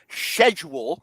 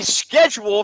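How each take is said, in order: First: It begins with an sh sound. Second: It begins with an sk sound. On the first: The team is playing in England. "when they travel to England in week five" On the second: The team is playing at home in America. "from week one through four"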